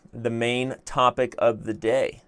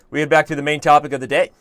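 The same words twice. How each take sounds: First: Slow, measured delivery; unhurried, weighty repeat at normal pitch; deliberate restatement. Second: Quick, loud, higher delivery; fast and raised, lifting at the end; brisk announcement. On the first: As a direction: spell it out word by word. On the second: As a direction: rattle it out brightly as a segue. Announces topic, then repeats it slower. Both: Shown as a demonstration.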